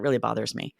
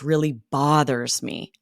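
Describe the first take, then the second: First: It sounds light and only mildly annoyed. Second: It sounds heavy and seriously upset. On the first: Something small is causing minor annoyance. "that's more like the fly buzzing in the ear" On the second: Something big and grave is troubling them. "with our intonation, we're sharing it upsets me"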